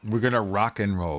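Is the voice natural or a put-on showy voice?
natural. It is said in a plain, natural voice.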